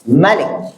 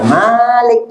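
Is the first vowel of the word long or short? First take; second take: short; long. First: The first vowel is kept short. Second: The first vowel is drawn out long.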